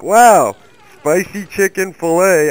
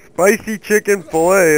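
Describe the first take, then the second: First: "spicy chicken fillet" said higher, louder and slower, hammed-up amazement; mock excited ad voice. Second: Said in the usual way. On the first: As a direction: oversell "Wow, spicy chicken fillet" like a cheesy ad. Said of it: "And it's like".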